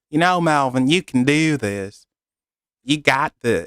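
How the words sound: It is said in a Texan accent.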